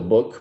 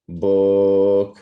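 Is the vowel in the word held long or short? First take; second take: short; long. First: The vowel is short and plain. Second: The vowel is stretched out long. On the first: "it's still book" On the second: "but you're just now saying book"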